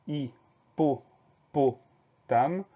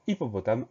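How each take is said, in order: First: "hippopotame" very slowly, a clear pause after each syllable. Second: Said in the usual way. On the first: Shown as a demonstration. Teacher recapping a spelling, "hippopotame" syllable by syllable. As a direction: split "hippopotame" into hi, po, po, tame. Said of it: "deuxième syllabe". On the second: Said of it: "la troisième syllabe".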